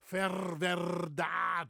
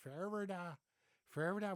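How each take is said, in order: First: "Ferwerda" very slow and loud, both R's strongly trilled; a Frisian speaker hamming up "Ferwerda" for learners; exaggerated rolled R. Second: "Ferwerda" with a light, barely rolled R; imitating other Dutch speakers saying "Ferwerda"; softer Dutch R. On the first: Shown as a demonstration. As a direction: show off the rolling R in "Ferwerda". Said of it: "just me showing off a little bit". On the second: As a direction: say "Ferwerda" the way other Dutch people do, R nearly gone. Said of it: "there's people in the Netherlands that say".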